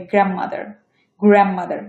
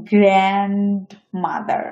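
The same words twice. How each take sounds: First: "গ্র্যান্ডমাদার" as gram-mother, D dropped; assimilated pronunciation. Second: Said in the usual way. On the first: Shown as a demonstration. Teacher models native speech, "গ্র্যান্ডমাদার" as gram-mother. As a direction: run "গ্র্যান্ডমাদার" together without the D. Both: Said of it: "উচ্চারণ হবে".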